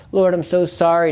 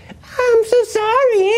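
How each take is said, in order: First: Said in the usual way. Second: Very high, drawn-out mocking whine; slow, high-pitched sneering wail; creepy demon voice. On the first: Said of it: "I was begging God for mercy". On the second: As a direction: imitate an ugly, sick demon faking tears. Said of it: "ugly, sick, scary, it creeped me out, voice".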